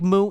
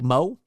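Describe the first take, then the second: First: The vowel is an 'oo' sound, like moo. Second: The vowel is an 'oh' sound, like moe. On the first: The speaker calls it wrong. "It looks like Mu" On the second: The speaker calls it right. "but you pronounce it Mo"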